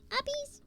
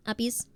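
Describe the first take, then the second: First: Much higher, a tiny cute squeak on Uppies. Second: Said in the usual way. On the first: Real, not acted. Streamer cooing Uppies at her pet, high squeaky baby talk.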